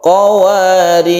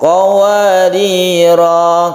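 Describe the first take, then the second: First: The word ends on a bare r consonant. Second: The word ends on a lengthened final vowel. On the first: This is how the verse sixteen word is read when stopping. "kalau berhenti itu disukun ro" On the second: This is how the verse fifteen word is read when stopping. "ayat lima belas ini dibaca panjang qawarira kalau berhenti"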